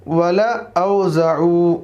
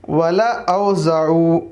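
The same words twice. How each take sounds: No difference in how they are said.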